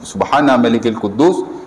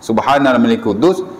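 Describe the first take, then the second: No difference in how they are said.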